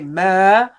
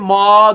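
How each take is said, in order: First: The m sound is said light and gentle. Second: The m sound is said heavy and thick. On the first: The speaker calls it right. "Say ma. Nice and gentle" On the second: The speaker calls it wrong. "Don't say ma. Don't make it heavy"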